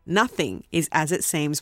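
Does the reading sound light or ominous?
ominous. It is read in a dark, ominous tone. The film is unsettling. "if I said it with that tone, you would have an idea about the feelings I have towards this film"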